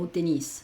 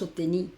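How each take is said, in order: First: The final s of tennis is pronounced. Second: The final s of tennis is silent. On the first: The speaker calls it right. "esa S se pronuncia" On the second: The speaker calls it wrong. "No decimos"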